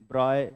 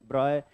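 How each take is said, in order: No difference in how they are said.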